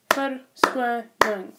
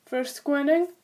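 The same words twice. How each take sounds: First: "verskoning" very slowly, syllable by syllable; "verskoning" with clear gaps between syllables; broken into syllables. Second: Said in the usual way. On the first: Shown as a demonstration. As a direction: split "verskoning" into separate beats. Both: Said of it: "words that have at least two syllables".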